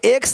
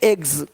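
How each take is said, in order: First: The word ends with a voiceless ks sound. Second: The word ends with a voiced gz sound. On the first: The speaker calls it wrong. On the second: The speaker calls it right.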